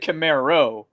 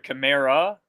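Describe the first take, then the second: First: The name ends with an 'oh' vowel. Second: The name ends with an 'ah' vowel. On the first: The speaker calls it wrong. "you said Camaro" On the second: The speaker calls it right. "So there's an A on the end"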